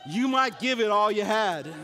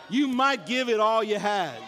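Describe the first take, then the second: Both takes have the same delivery.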